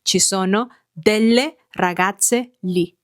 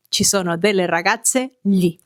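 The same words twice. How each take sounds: First: Slow model sentence. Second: Said in the usual way. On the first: Shown as a demonstration.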